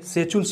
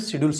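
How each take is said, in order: First: The middle consonant is a ch-like sound. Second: The middle consonant is a plain d sound. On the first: "कहीं कहीं इसको से सेचुल्स बोला जाता है" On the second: "इसको इंग्लिश में शेड्यूल्स बोलते हैं"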